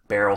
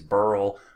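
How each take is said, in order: First: It is said as two syllables, 'Ber-yl'. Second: It is said as one syllable, like 'Burl'. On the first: This is the correct name. The speaker calls it right. "It's it's Beryl" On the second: This is how many people mistakenly say it. The speaker calls it wrong. "people think it's Burl"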